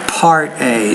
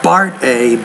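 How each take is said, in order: First: The first word begins with a P sound. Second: The first word begins with a B sound. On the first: The speaker calls it right. "but Part A" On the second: The speaker calls it wrong. "not Bart A"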